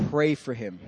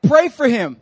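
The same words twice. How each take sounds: First: Low, soft voice of God; quiet, grave instruction; solemn divine command. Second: The Lord's command. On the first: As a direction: repeat the order gently, deep and hushed. God repeats command, solemnly retold. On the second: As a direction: give it as a firm, loud instruction. God's command in retold story. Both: Retold or imitated.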